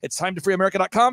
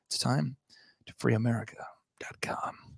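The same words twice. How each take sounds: First: It is said fast. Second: It is said slowly.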